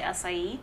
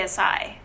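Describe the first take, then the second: First: Acai said ah-sigh-EE; three syllables in acai, ending on ee; other people's pronunciation. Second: Acai said uh-SIGH; two syllables in acai, no final ee; own pronunciation. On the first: Retold or imitated. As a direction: acai with a sounded final i. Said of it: "when people say acai". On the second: Shown as a demonstration. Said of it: "but I say acai".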